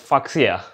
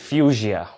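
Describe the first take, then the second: First: The word is sounded out as it is spelled. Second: The word is said with its standard pronunciation. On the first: The speaker calls it wrong. "in my mind, I was reading it as Fuchsia" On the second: The speaker calls it right. "I found out the exact pronunciation, and it was Fuchsia"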